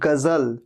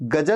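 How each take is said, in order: First: The middle consonant is a 'z' sound. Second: The middle consonant is a 'j' sound. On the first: The speaker calls it right. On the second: The speaker calls it wrong.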